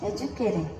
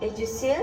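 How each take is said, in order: First: The middle consonant sounds like k. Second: The middle consonant sounds like s. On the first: "और कुछ लोग इसको प्रोनाउंस करते हैं" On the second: "इसको कुछ लोग प्रोनाउंस करते हैं"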